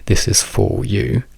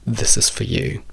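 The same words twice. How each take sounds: First: The vowel in 'for' is long and full. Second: The vowel in 'for' is reduced to schwa. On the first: The speaker calls it wrong. "nessuno direbbe" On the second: The speaker calls it right. "noi diciamo solo"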